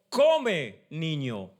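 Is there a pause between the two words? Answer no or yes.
yes. A short pause separates the two words. The child is being told to eat.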